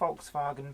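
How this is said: The name is said with German pronunciation. "I pronounce it as per the German way"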